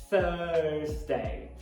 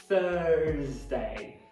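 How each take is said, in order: The two takes are said the same way.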